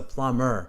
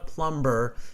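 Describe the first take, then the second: First: The b sound is left out entirely. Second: The b sound is pronounced in the middle. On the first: The speaker calls it right. "it's a silent uh, B" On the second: The speaker calls it wrong. "pronounces the B's ... it's not a plumber"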